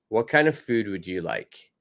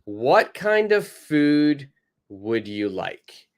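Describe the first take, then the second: First: Said in the usual way. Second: Slow, careful model question; teacher modelling the question slowly. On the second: Shown as a demonstration. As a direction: spell out each word slowly for learners. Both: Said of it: "person B says".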